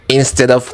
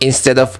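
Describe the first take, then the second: No difference in how they are said.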